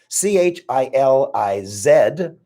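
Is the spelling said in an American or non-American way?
non-American. The letters are spelled in a non-American way.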